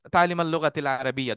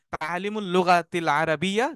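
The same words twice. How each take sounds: First: "তালিমাল" with the u slurred to a; fluent-speech "তালিমাল", case vowel blurred; fast-speech form. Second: "তালিমুল" with a clear u before the l; careful grammatical form. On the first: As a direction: say "তালিমাল", ending in al instead of ul. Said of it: "যখন দ্রুত বলা হয়". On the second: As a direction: say "তালিমুল" with its full u ending. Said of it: "you may hear যে এটা sound হচ্ছে". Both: Shown as a demonstration.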